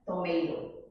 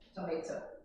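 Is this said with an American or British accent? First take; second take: American; British. First: It is said in an American accent. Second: It is said in a British accent. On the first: "os americanos eles preferem" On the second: "o britânico diz tomato"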